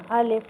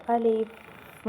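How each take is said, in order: First: الف loud, halted right on the "f"; stopped final sound. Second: الف with the final "f" running on; trailing final sound. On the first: Teacher showing the fix, الف cut off at a wall. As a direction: stop الف firmly at the "f", no trailing. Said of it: "بس اسے روک دینا". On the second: Teacher showing the mistake, الف with its last sound dragged on. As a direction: let the "f" at the end of الف keep going. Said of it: "پے کی آواز آپ کی نکلتی چلی جا رہی ہے". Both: Shown as a demonstration.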